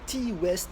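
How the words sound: The name is pronounced with French sounds. "j'aime bien prononcer à la française"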